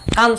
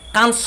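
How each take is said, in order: First: The word ends without any s sound. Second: The word ends with an audible s sound. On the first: The speaker calls it right. "কান চলচ্চিত্ৰ মহোৎসৱ বুলিহে অভিহিত কৰা হয়" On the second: The speaker calls it wrong. "কানস চলচ্চিত্ৰ মহোৎসৱ নকৈ"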